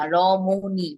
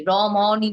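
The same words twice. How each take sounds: First: রমণী with the middle vowel like ও, rɔmoni; teacher gives the right রমণী; correct pronunciation. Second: রমণী with an open middle vowel, rɔmɔni; রমণী said the wrong way as rɔmɔni; teacher shows the wrong রমণী. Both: Shown as a demonstration. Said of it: "রমণী না".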